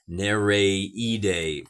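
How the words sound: The name is said in Hawaiian style.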